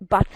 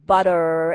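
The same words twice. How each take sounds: First: The middle T sounds as a clear T. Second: The middle T sounds soft, like a quick D.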